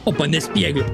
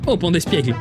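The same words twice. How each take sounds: First: It is said in a southern French accent. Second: It is said in a neutral French accent.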